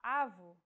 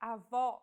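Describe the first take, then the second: First: Avó said with the stress on the first vowel, AH-vo; Portuguese avo, no accent. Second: Avó with the stress on the final open ó, ah-VAW; grandmother, stress at the end; Portuguese avó. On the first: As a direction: put the weight on the first vowel. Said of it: "and with no accent at all". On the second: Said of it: "This word means grandmother". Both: Shown as a demonstration.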